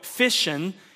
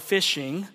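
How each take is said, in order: First: The word ends without a g sound. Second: The word ends with a clear g sound. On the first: This is how it is said in the South. The speaker calls it right. "there are no G's at the end of any word in the South that ends in I-N-G. You go fishing" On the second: This is not how it is said in the South. The speaker calls it wrong. "you don't go fishing"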